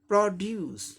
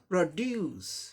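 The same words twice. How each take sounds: First: The stress is on the first syllable. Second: The stress is on the second syllable. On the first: It is used as a noun. "First syllable पे stress है" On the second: It is used as a verb. "डू second syllable पर जोड़ हो जाएगा"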